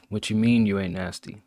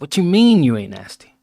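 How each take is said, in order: First: It is said in one flat tone. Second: It is said with lively ups and downs.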